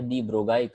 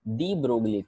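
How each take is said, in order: First: The l sound is silent. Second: The l sound is pronounced.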